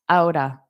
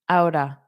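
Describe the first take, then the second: No difference in how they are said.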